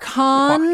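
It is pronounced the French way. The speaker calls it right. "I pronounce all French shit how it should be pronounced"

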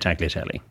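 It is said with an English pronunciation. "But over here, you can just say"

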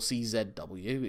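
The letter Z is said as zed.

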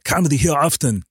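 It is said as a firm command.

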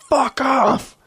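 It is said harshly and with real anger. It is a genuine hostile dismissal. "it's a very different meaning"

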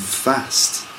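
It is said in a northern English accent. "in the north"

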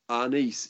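Said with a Filipino-accented pronunciation. "Arnis is what they say in the Philippines"

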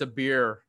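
It is said with the R clearly pronounced.

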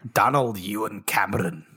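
It is said in a put-on, accented voice.

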